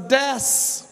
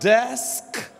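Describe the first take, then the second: First: The final consonant is left off. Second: The final consonant cluster is fully pronounced. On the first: "you don't pronounce the last consonant" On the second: "This is not a desk"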